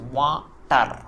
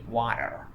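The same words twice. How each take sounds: First: Said in an Indian accent, with every letter pronounced. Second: Said in an American accent, not letter by letter. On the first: "When Indians speak, they pronounce each and every letter in that word water" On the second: "if you ask an American, he would say water"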